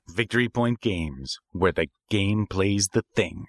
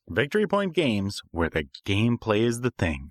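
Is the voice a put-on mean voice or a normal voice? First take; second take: mean; normal. First: It is said in a put-on mean voice. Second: It is said in a normal, plain voice.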